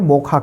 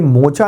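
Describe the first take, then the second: First: The middle consonant is a 'kh' sound. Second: The middle consonant is a 'ch' sound. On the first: "इसको हम उच्चारण में मोखा कहेंगे" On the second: "ये मोचा नाम जो है"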